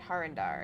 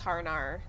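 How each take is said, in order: First: The name is said with a d sound. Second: The name is said without a d sound. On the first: The speaker calls it right. "There's a D in it" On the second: The speaker calls it wrong. "maybe it's the the fact that I'm not pronouncing the D"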